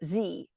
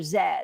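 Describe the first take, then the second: First: The letter is said as American zee. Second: The letter is said as zed.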